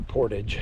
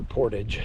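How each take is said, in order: First: It is pronounced the American way. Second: It is pronounced the American way.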